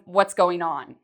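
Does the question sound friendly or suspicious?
suspicious. It sounds suspicious and accusing, like a warning. I know you are doing something bad. "it's the way you say it that changes the meaning"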